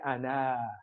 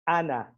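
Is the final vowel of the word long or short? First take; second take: long; short. First: The final vowel is long. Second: The final vowel is short. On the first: The speaker calls it wrong. "We don't say ana" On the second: The speaker calls it right. "that aleph is not pronounced"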